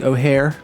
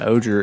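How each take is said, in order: First: The name is said with an h sound. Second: The name is said without an h sound. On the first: "I've heard it pronounced with an H" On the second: "Oger is what I've been calling it"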